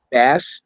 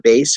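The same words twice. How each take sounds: First: "Bass" with short a, like the fish; short-a pronunciation. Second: "Bass" with long a, like bass guitar; long-a pronunciation. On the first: Naming a video game boss character, "Bass" with short a. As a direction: say "Bass" to rhyme with "pass". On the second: Offering another name for the boss, "Bass" with long a. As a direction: say "Bass" to rhyme with "face". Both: Shown as a demonstration. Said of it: "however you wanna pronounce it".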